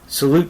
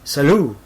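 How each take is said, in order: First: It is said with a plain English pronunciation. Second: It is said with an Italian-style pronunciation.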